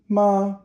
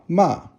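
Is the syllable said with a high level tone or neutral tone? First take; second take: high level; neutral. First: The syllable is held high and level. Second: The syllable is short and light, neutral tone. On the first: "ma first tone" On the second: "So it's neutral tone"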